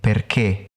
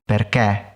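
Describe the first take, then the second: First: The final e is closed. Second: The final e is open. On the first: The speaker calls it right. "I say perché" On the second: The speaker calls it wrong. "I don't say perché"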